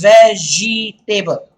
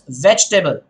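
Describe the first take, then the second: First: The word is said with four full syllables. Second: The word is said as veg plus table. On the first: The speaker calls it wrong. "do not pronounce it as vegetable" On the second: The speaker calls it right. "Imagine there is table and the table is veg"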